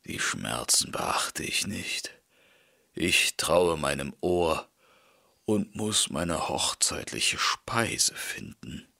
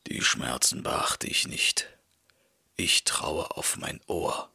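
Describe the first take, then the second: First: Low, weak, fading to a whisper; battered wolf, low and hushed; dazed wolf. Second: Low, hushed, stubborn wolf; dazed wolf, low and hushed. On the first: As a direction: hold on to the hope through pain. Beaten wolf, stubborn again. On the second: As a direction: mutter it through the pain. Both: A narrator's reading.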